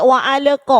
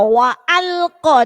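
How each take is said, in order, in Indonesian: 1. Bunyi qaf diucapkan ringan, tanpa tekanan. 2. Bunyi qaf diucapkan dengan tekanan kuat. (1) "jangan sampai wa alqa"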